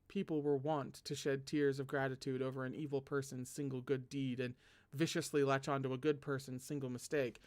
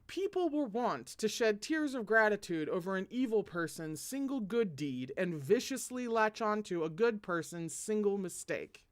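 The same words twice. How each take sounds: First: It is read at normal, softer volume. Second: It is read loudly, with raised volume.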